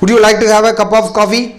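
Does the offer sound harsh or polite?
harsh. The offer sounds flat and harsh. The guest would feel put off and leave. The speaker calls it wrong. "எந்திரிச்சு ஓடிடுவார் அவர்"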